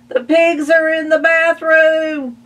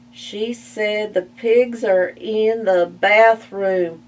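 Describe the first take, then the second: First: High, loud panicked cry; alarmed shout. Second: Slower, measured pig retelling; calm pig repeating. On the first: Ma shouting to Calvin about the pigs, high loud. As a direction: yell it in alarm. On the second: Buster calmly repeating Ma's alarm to Spike, slow. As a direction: repeat it coolly, unlike Ma's panic. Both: Acted.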